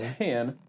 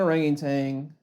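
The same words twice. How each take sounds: First: The word ends with a 'tan' sound. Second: The word ends with a 'tang' sound. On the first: The speaker calls it right. "Orangutan is the way you say it" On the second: The speaker calls it wrong. "it's not an orangutan"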